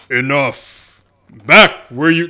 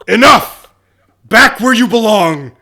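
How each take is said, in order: First: It is a voice that sounds like Jesus. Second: It is a mean, strict Catholic nun voice.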